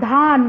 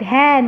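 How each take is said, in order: First: ধান with a plain open আ, as the wrong way; mispronounced ধান, drawn out; wrong pronunciation. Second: ধ্যান with a clear অ্যা vowel, rising; teacher's correct ধ্যান, অ্যা sound; correct pronunciation. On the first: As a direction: say ধান slowly to show the mistake. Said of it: "ধ্যান আমরা কখনোই বলি না". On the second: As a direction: model ধ্যান the right way for pupils. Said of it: "আমরা কি বলি?". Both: Shown as a demonstration.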